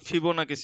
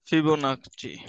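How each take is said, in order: First: The last consonant is a hard k sound. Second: The last consonant is a ch sound.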